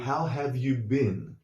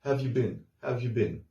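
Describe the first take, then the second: First: "How have you been?" slow and fully spelled out; careful textbook reading; full form. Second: "Have you been?" with how dropped, blended quickly; casual spoken greeting; clipped contraction. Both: Shown as a demonstration. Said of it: "Which would be more like".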